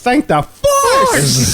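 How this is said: It is said imitating her dramatic way.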